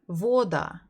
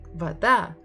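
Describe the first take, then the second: First: The stress is on the first syllable. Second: The stress is on the second syllable. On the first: The speaker calls it wrong. "stressed on the first syllable, you would read it as вода" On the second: The speaker calls it right. "so we stress а, not о"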